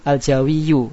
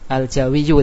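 Both takes have the same delivery.

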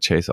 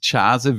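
First: The name is said the American English way. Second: The name is said in a non-English way. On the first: The speaker calls it right. "sondern Chase ausgesprochen wird" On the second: The speaker calls it wrong. "wie ich ihn japanisch ausgesprochen habe"

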